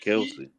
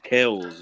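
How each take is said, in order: First: The name is said as two syllables. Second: The name is said as one syllable. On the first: The speaker calls it wrong. "not Kelsey" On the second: The speaker calls it right. "He said it's pronounced Kells"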